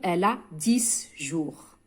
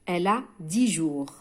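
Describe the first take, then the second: First: The x in dix is pronounced. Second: The x in dix is silent. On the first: The speaker calls it wrong. "لا أقول" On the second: The speaker calls it right. "في القاعدة قلنا الكلمة تبدأ بأون كونسون أو ان اش لا أنطق الإكس"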